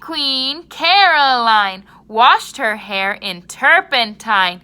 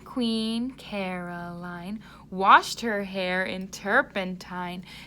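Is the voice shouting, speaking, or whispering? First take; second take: shouting; speaking. First: It is said in a shouting voice. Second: It is said in a normal speaking voice. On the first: "try using a shouting voice" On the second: "using your speaking voice"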